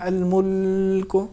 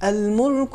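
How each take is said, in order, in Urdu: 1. لام پر ایک مختصر وقفہ کیا جاتا ہے۔ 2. لام بغیر کسی وقفے کے روانی سے ادا ہوتا ہے۔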